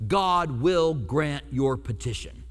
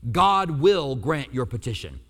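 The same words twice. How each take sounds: First: Slow, weighty, each word placed; "God will grant your petition." read slowly, falling on God; slow emphatic reading. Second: "God will grant your petition." repeated louder, slow, pressing God; slower, firmer repeat. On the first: Pastor to congregation, slow and weighty. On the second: Pastor repeating the promise, slow and firmer. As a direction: lean in harder on the promise. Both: Shown as a demonstration. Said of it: "That's what he says".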